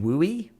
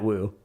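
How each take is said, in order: First: The word is said with two syllables. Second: The word is said with one syllable. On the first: "they've been pronouncing it wooey" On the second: "I'm calling it woo"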